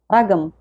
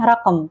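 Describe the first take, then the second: First: The middle consonant is a hard g. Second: The middle consonant is a deep throaty q. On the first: This is how Saudis usually say it. "kalau orang Saudi biasanya bilangnya ragam" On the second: This is the standard formal form. "dalam bahasa Fushah nyebutnya raqam"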